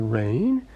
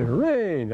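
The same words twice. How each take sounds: First: It is said with disbelief. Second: It is said with relief.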